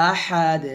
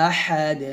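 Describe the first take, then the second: Both takes have the same delivery.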